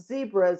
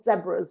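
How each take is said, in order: First: It is said with an American pronunciation. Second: It is said with a British pronunciation. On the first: "our word of zebras" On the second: "not zebras like they do across the pond"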